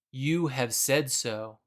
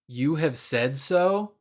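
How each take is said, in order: First: Quiet, slow and plain confirmation; just confirm it calmly; simple confirmation. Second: Lightly sassy and slow, rising at the end; a mild cheeky question. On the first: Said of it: "it doesn't appear to be sassy". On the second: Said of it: "it sounds kinda sassy". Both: Retold or imitated.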